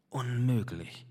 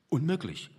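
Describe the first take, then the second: First: A softer, pained sigh of a word; tormented. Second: Said in the usual way. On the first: Acted. Painter giving up before the canvas, a soft pained sigh. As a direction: breathe it out as if it hurts. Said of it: "gab er gequält von sich".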